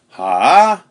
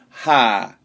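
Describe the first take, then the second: First: It is said with a dipping third tone. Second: It is said with the fourth tone. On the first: "third tone, sort of a dip" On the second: "fourth tone"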